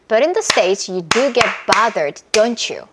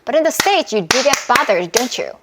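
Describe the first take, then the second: First: The sentence is said at a moderate speed. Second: The sentence is said at a quicker speed. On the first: "좀 더 빨랐죠?" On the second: "이러면서 빨라지는 거예요"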